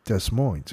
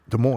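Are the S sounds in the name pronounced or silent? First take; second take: pronounced; silent. First: The S sounds in the name are pronounced. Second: The S sounds in the name are silent. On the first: The speaker calls it wrong. "I said to the guy, I was like, Des Moines. He looked at me" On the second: The speaker calls it right. "the S is silent in Des Moines"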